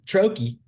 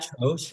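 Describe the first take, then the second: First: The word ends in a 'kee' syllable. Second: The word ends in a soft 'sh' sound. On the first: The speaker calls it right. "I thought I was right, and I was not" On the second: The speaker calls it wrong. "I thought it was a troche"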